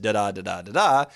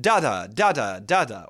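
First: "da-da" stressed on the second syllable; quick da-DA beat on each "da-da"; iambic rhythm. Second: "da-da" stressed on the first syllable; punchy DA-da beat on each "da-da"; trochaic rhythm. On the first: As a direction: chant "da-da" weak then strong, three times. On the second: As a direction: chant "da-da" strong then weak, three times. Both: Shown as a demonstration. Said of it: "What different rhythms can I create?".

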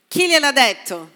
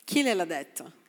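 First: Louder, pressing question; emphatic challenge. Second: Softer, lower musing question; soft repeat. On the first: Pastor challenging the congregation loudly, pressing. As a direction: demand an answer, pushing. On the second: Pastor repeating the question to himself, soft and low. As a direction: drop the voice and let it sink in. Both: Acted.

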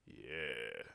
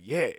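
First: Low, soft, drawn-out yeah; reluctant, deflated agreement; unimpressed yeah. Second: Upbeat, impressed little yeah; keen, approving reaction. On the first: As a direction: let it sink, full of doubt. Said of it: "It was like". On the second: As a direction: say it like you heartily approve. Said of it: "his face didn't go like". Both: Acted.

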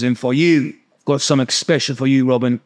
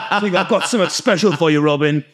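First: Light mock-Cockney accent; accidental Cockney. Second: Playful put-on Cockney accent; mock Cockney. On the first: Imitating the neighbour handing out gifts, lightly put-on Cockney. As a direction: slip into a hint of Cockney for the quote. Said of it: "I don't know why I'm talking like that". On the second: Repeating the gift-giver's line after laughing, mock Cockney. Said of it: "He's not a Cockney".

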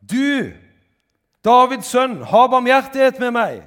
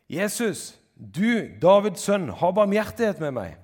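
First: Full-force, high-pitched desperate shout; very loud, high, insistent cry; shouting at the top of the voice. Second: High, loud cry for mercy; loud beggar's call. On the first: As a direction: yell it out for mercy with everything you have. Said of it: "han ropte bare enda høyere". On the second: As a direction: shout to someone passing by, pleading. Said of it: "Da ropte han". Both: A narrator's reading.

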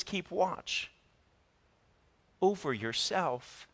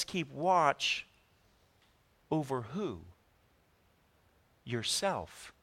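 First: Soft deliberate restatement; quiet emphatic repeat. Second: Quiet preacher's punchline; slow, emphatic quote. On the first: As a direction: Keep watch said softer with a pause before over yourself. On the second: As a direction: Keep watch dropped softer, a long pause before Yourself. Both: Shown as a demonstration. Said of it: "He says".

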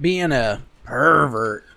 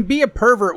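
First: "pervert" drawn out long; loaded emphasis on PERVERT. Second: Said in the usual way. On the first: Shown as a demonstration. Co-host separating the two senses of the broad term, "pervert" drawn out with loaded emphasis. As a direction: stretch out "pervert" to give it the bad sense.

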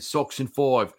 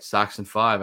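First: Sox in Five with a mock Australian accent, FIVE said like foive; hammed-up Aussie twang on Five as foive; jokey fake Australian accent, higher. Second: Said in the usual way. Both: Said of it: "I gotta do it in the Aussie accent".

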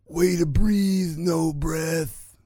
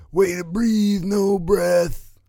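First: Slow, higher cartoon-bully Simpsons accent; Jimbo accent. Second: Put-on higher Simpsons bully accent, quoted quickly; Jimbo accent. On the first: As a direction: drawl it like Jimbo from the Quickie Mart. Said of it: "I even gave it to you with the accent". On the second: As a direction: toss off the Jimbo line in his accent. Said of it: "And then Jimbo's like".

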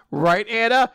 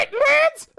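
First: Higher-pitched, eager appeal; eager call-out. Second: Tiny very high falsetto squeak; squeaky voice. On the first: Lance appealing to his sister, eager raised voice. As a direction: call out for her agreement. Lance suddenly calls to Anna. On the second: Sister agreeing with Lance, in a squeaky voice. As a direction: squeal it back in a mouse-like voice. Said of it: "squeaky voice". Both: Acted.

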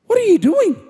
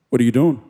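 First: High-pitched, swooping question; incredulous mock question. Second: Deep, understated murmur across a dark room; low casual question. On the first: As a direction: ask it in exaggerated high disbelief. Mock questioning himself in the story. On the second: Retold or imitated. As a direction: ask it low and deadpan. Quotes his low night-time question.

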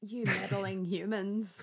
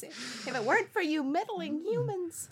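First: Slow theatrical villain menace; Scooby-Doo villain voice. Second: High, theatrical cartoon villain whine; Scooby-Doo villain voice. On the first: Pretend. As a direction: drawl it like a cartoon villain. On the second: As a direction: sneer it like an unmasked villain. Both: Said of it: "You Scooby-Doo villain voice".

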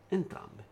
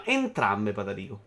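First: Breathy whispered echo of entrambe. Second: Said in the usual way. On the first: Shown as a demonstration. Repeats the word, then whispers.

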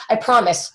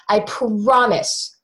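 First: Said in the usual way. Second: "promise" stretched out slowly for emphasis; weighty, slow stress on "promise"; emphatic vow. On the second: Retold or imitated. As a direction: draw out "promise" as a solemn vow. Husband's vow, repeated for emphasis.

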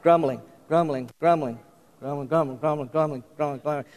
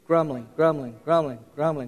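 First: Low, quiet muttering, word run over and over; mock discontented murmur, repeated continuously; better grumbling. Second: Low murmured chant of the word; a hint of muttered complaint; demonstrated grumbling. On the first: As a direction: grumble it under your breath, sinking softer. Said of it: "you can grumble better than that". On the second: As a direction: repeat it in a lightly grumbly undertone. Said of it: "start saying grumbling". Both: Shown as a demonstration.

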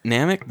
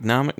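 First: "Namek" with a short flat A as in "cat", rising; questioning pronunciation. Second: "Namek" with an open AH in the first syllable; second-guess pronunciation. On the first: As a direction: say "Namek" as NAM-ick, unsure. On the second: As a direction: say "Namek" as NAH-muck, testing it. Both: Real, not acted. Trying out the name's pronunciation.

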